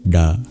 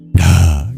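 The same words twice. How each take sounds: First: The consonant is said without a breath puff. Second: The consonant is said with a breath puff. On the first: "curl your tongue back and make a D kind of sound" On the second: "the H tells us that we aspirated"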